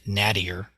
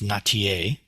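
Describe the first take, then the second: First: The name is said with a Midwestern American pronunciation. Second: The name is said without a Midwestern American pronunciation. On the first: This is how a Midwesterner would naturally say it. "being from the Midwest, I would pronounce it Nattier" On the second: This is how the person herself says the name. "her name is pronounced Natier"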